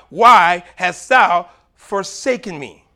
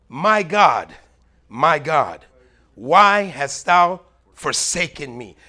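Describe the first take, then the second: First: Louder, slow anguished call; anguished cry. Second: Louder, slow anguished crying out. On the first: Jesus crying out on the cross, slow anguished plea. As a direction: plead it out slowly. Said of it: "Jesus would not have cried out". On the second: Jesus on the cross calling to God, slow anguished cry. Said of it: "Jesus cried out". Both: Acted.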